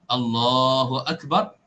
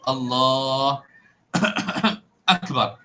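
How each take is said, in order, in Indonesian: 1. Kedua kata ini menyambung tanpa jeda. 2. Kedua kata ini dipisahkan oleh jeda. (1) "di antara Allah dengan akbar tidak terputus" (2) "tidak boleh terputus. Allah akbar, tidak boleh"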